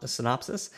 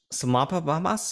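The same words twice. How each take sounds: First: Said in the usual way. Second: "Synopsis" drawn out as babbled "suh-mop-a-mas"; garbled pronunciation. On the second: Pretend. Host mocking his own slip on synopsis, "Synopsis" garbled into "suh-mop-a-mas". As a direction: stumble on purpose through "Synopsis" with extra pop-pa syllables. Mocks own stumble over the word.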